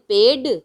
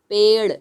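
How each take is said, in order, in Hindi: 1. यह व्यंजन सादा मूर्धन्य ड स्पर्श है। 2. यह व्यंजन तेज़ मूर्धन्य ताड़न है। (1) "अगर ड होता तो हम बोलते हैं" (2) "लेकिन हम क्या बोल रहे हैं?"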